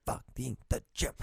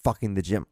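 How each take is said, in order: First: Fucking the gym said much softer, trailing off to himself; muttered under breath. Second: Said in the usual way. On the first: Shown as a demonstration. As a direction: repeat Fucking the gym as a quiet aside. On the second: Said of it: "from fucking the gym".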